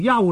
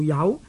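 First: The syllable is said on a level tone. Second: The syllable is said on a rising tone. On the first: The speaker calls it wrong. "我们呢就不能呢读做幽了" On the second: The speaker calls it right. "就应该呢读做有"

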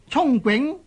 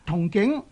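First: The first syllable sounds like cung, as in 冲. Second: The first syllable sounds like tung, as in 同. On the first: This is the traditional correct reading. "表达呢係冇咁好嘅" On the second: This is the common popular reading. "假如一般人呢都已经读成呢个同景"

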